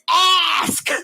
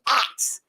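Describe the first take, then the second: First: The word ends with the sounds s then k. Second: The word ends with the sounds k then s. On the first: The speaker calls it right. "think of your ass as you say ask" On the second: The speaker calls it wrong. "you say it like it's an axe"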